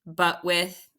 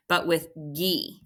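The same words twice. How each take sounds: First: "but with" said with no G sound at the end; syllables without the G. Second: "but with gi" ending on a clear hard G plus long E; G sound added. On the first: Teacher splitting buggy into syllables, leaving out the G. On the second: Teacher correcting herself, saying the syllables with the G. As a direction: add the G: "but with gi". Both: Shown as a demonstration. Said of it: "whoops, I need that G in there".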